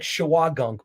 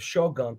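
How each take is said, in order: First: The name begins with a longer 'shawa' sound. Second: The name begins with a short 'sho' sound. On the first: The speaker calls it right. "it's like Shawagunk" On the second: The speaker calls it wrong. "I'm saying it wrong by the way"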